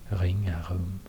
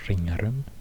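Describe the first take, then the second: First: The r sound is made deep in the throat. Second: The r sound is made further forward in the mouth. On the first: "It's even more deep. It's like in the middle of the throat here" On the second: "I would say Ringarum, because it's spelled with an R"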